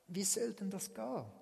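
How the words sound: It is asked in a humble, wondering tone. The asker wonders at being chosen. "Und dann die andere Umständhaltung"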